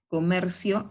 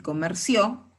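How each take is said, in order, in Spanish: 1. La tónica cae en la sílaba mer. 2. La tónica cae en la sílaba cio. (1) "la sílaba tónica es la penúltima" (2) "la sílaba tónica es la última"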